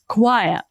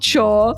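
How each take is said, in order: First: The word sounds like 'kwire', beginning with 'kw'. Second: The word sounds like 'chore', with no 'kw' sound. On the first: The speaker calls it right. "you say choir" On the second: The speaker calls it wrong. "It's not chore, not chore"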